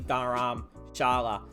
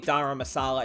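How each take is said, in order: First: The middle consonant is an sh sound. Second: The middle consonant is a plain s sound. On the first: The speaker calls it right. "It's actually Dharamshala with the S H" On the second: The speaker calls it wrong. "I was calling it Dharamsala"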